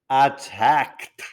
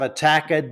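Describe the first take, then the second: First: The K joins the final D with no vowel. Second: An extra vowel sound comes before the final D. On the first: The speaker calls it right. "merged with a D without a vowel" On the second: The speaker calls it wrong. "Got it wrong again"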